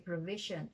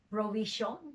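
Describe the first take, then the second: First: The last syllable is reduced to a schwa. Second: Every syllable is said fully and distinctly. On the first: This is the everyday conversational way. "conversational English ... the T I O N is a swa" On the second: A lawyer speaking formally would say it this way. "would like to make every consonant, every syllable distinct"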